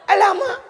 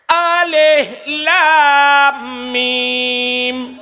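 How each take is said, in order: First: It is run together as one word. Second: It is read as three separate letter names. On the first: The speaker calls it wrong. "alif lam mim gebaca alama" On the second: The speaker calls it right. "Nak tahu nak dengar orang buat mana?"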